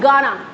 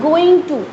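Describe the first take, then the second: First: The two words are merged into one short word. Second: The two words are said fully and separately. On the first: "गोइंग टू को मर्ज करके बोलते हैं गाना" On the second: "इरादा जब हम बताते हैं तो हम बोलते हैं गोइंग टू"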